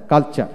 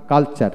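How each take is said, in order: Both takes have the same delivery.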